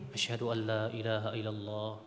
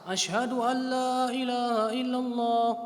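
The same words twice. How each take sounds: First: It is said quietly, almost under the breath. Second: It is said loudly, in a full voice.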